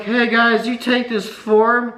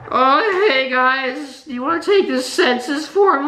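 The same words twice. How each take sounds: First: Said in the usual way. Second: High, sing-song fake politeness; exaggerated sweet asking voice; high mock-polite voice. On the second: Exasperated retelling of the same ask.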